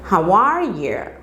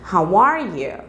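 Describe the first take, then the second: The two takes are said the same way.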